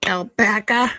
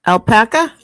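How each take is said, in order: First: Light Boston accent, questioning; a hint of Boston. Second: Boston accent, loud and rising. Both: Shown as a demonstration. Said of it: "My Boston accent".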